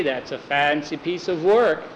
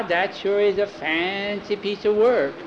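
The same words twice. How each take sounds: First: Said in the usual way. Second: Put-on high, slow little-boy echo; child parroting an adult. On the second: A narrator's reading. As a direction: stretch it out, copying the grown-up. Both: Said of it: "They're repeating everything we say".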